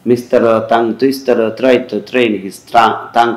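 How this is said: Every T is a soft dental t sound. "অ্যারাবিয়ানরা বা যদি স্প্যানিশদেরকে বলেন তাহলে ওরা বলবে"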